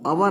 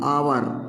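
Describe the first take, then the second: First: The word starts with a short vowel. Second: The word starts with a long vowel. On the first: The speaker calls it wrong. "अवर नहीं" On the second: The speaker calls it right.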